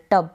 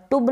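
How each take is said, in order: First: टब with a short a, like 'tub'; the right reading टब, short uh vowel; correct pronunciation. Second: टुब said with a u vowel, the wrong way; the wrong reading टुब, oo sound like 'tub' misread; wrong pronunciation. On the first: Teacher giving students the right reading, टब with short a. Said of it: "टब बन गया". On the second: Teacher showing students the wrong reading, टुब with oo. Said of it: "टुब नहीं पढ़ेंगे". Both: Shown as a demonstration.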